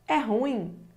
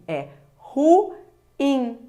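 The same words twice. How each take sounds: First: Ruim is said as a single syllable. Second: Ruim is said as two separate syllables. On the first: The speaker calls it wrong. "Muita gente fala assim" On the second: The speaker calls it right. "Essa é a forma correta"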